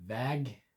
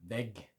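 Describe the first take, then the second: First: Väg held on a long ä. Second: Vägg with a clipped ä; short ä. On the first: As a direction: draw out the ä in Väg. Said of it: "longer a sound in väg". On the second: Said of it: "the shorter a sound in vägg". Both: Shown as a demonstration.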